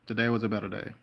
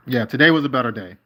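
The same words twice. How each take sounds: First: Softer, settled repeat to himself; quiet echo. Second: Firm and louder, leaning into it; emphatic declaration. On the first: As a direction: let it sink in, softly. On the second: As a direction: announce it with relief. Repeats a relieved remark. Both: Real, not acted.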